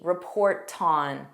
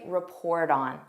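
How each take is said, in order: First: The t is a strong, clear t. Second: The t is a soft d sound. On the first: "in British English, they have a stronger T" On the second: "that's not what I say. I say report on"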